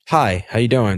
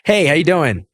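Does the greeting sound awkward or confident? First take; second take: awkward; confident. First: The greeting sounds awkward and uncomfortable. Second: The greeting sounds confident and charismatic.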